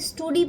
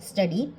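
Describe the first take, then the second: First: The first vowel is a long 'oo' sound. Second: The first vowel is a short 'uh' sound. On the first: The speaker calls it wrong. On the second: The speaker calls it right.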